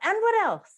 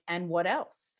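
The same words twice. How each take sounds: First: It is asked in a sharp, accusatory tone. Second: It is asked in a gentle, inviting tone. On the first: The listener is being blamed or pressured. The speaker calls it wrong. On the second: The listener is invited to explore further. The speaker calls it right.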